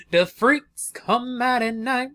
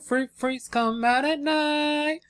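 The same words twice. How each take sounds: First: Slow, drawn-out teasing spooky voice; slow mock-sinister tease; sultry spooky intro. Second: Slow, higher, drawn-out croon; playful spooky croon; higher sultry repeat. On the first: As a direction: croon it like a late-night hostess. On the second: Pretend. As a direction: tease it out slower and higher. Repeats intro line, higher and slower.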